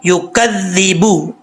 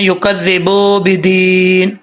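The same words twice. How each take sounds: First: युकज़्ज़िबु slowly with a short बु; the correct pronunciation; correct reading. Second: युकज़्ज़िबु with बु stretched long; the common mispronunciation; wrong reading. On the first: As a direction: read युकज़्ज़िबु with a clipped final vowel. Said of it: "बा को लंबा बिल्कुल भी नहीं करना". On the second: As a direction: show the mistaken long बू. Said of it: "ये बहुत बड़ी मिस्टेक है". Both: Shown as a demonstration.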